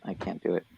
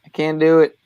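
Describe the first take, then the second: First: Low, soft trailing-off; quiet mutter. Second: Louder, higher exclamation; emphatic. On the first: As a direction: mutter it under your breath. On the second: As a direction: blurt it out with emphasis. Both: Real, not acted.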